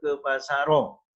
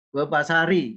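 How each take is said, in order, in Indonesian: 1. Kata itu berakhir dengan vokal o tambahan. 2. Kata itu berakhir dengan vokal i tambahan. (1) "Tidak bisa juga" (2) "Tidak bisa juga"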